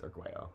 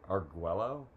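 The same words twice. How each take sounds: First: The double L is pronounced the Spanish way. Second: The double L is pronounced the English way. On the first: The speaker calls it right. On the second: The speaker calls it wrong.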